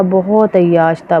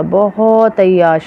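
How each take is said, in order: First: Said in the usual way. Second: "बहुत" stretched long for emphasis; slow, emphatic "बहुत" with a long vowel; drawn-out emphasis. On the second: Real, not acted. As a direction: dwell slowly on "बहुत" to show how extreme. Repeats phrase for emphasis.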